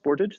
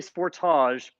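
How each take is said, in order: First: It is pronounced the way Americans say it. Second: It is pronounced the way Canadians say it. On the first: This is the name as used in America. "I know you call it Sportage" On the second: This is the name as used in Canada. "that's what it's called in Canada and Australia"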